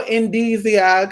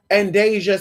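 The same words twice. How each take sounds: First: "Indesia" said as in-DEE-zee-uh; "Indesia" with a long ee in the middle; trying a pronunciation. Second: "Indesia" said as in-DAY-zhuh; "Indesia" in three syllables, in-DAY-zhuh; second pronunciation. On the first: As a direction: say "Indesia" with a DEE and a separate "ee-uh" ending. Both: Real, not acted. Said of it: "am I saying it right?".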